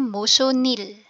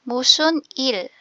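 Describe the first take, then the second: First: The final consonant links into the next word. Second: The two words are said separately, unlinked.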